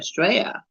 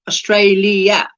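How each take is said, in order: First: The L sound is dropped. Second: The L sound is clearly pronounced. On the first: "So you don't pronounce the L" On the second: "Instead of Australia"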